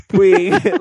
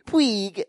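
First: "Puig" louder and higher, mock emphasis; imitated second Puig. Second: "Puig" as a mimicked high pweeg; imitated first Puig. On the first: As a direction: punch "Puig" as an exaggerated copy. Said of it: "you're intentionally saying it differently". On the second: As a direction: copy the co-host's "Puig", pitched up. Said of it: "you're doing differently is you're going". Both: Host mimicking co-host's demonstration, exaggerated pronunciation.

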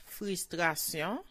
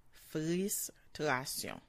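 First: Said in the usual way. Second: "Frustration" at half speed, broken into parts; slow sounding out. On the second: Shown as a demonstration. Teacher modelling "Frustration" for learners, slowly in separate parts. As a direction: pull "Frustration" apart with a gap after the first syllable.

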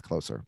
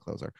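First: "Closer" with an s sound, KLOH-ser; "Closer" rhyming with grocer; proper pronunciation of Closer. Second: "Closer" with a z sound, KLOH-zer; "Closer" voiced in the middle as z; personal pronunciation of Closer. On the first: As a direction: say "Closer" as in nearer, with a soft s. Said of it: "I think it's pronounced". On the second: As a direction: say "Closer" like a baseball closer, with a z. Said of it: "but yeah, I call it". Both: Shown as a demonstration.

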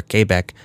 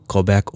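First: Quebec said with a KAY start; French-style Quebec. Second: Quebec said with a plain KUH or KWUH start; anglicized Quebec. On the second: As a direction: say Quebec the English way, kwuh-BECK. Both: Shown as a demonstration. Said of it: "however you wanna pronounce it".

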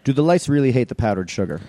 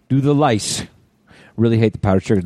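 First: Said in the usual way. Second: Hint of a movie character; movie line delivery. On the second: Shown as a demonstration. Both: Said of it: "that's a line from Super Troopers".

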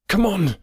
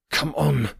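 First: High, more forceful call; urgent shout. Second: Higher, drawn-out call; urgent cry. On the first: Guide rushing across the glade, high urgent shout. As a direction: burst out urging them forward. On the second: Guide urging the two men on, higher urgent cry. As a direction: call them onward. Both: A narrator's reading. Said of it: "cried our guide".

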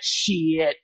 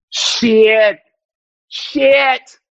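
First: Muttered curse. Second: Louder curse. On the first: Muttered swear before building up. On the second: Swearing louder each time. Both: Acted.

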